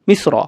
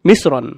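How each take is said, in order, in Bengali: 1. শব্দটি n ধ্বনি ছাড়া শেষ হয়। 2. শব্দটির শেষে একটি স্পষ্ট n ধ্বনি শোনা যায়। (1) "তানবিন ছাড়া" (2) "সহকারে মিশ্রণ এর শেষে নুন ধ্বনিটি শুনতে পাওয়া যায়"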